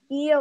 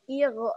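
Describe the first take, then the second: First: The final consonant flows out smoothly without bounce. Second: The final consonant ends with an audible bounce. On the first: The speaker calls it right. "Padahal harusnya mengalir biasa" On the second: The speaker calls it wrong. "Ada pantulannya"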